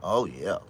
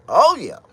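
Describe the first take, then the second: First: Said in the usual way. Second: High, loud "Oh yeah"; loud exclaim. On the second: Real, not acted. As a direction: let it burst out. Loud outburst after repeat.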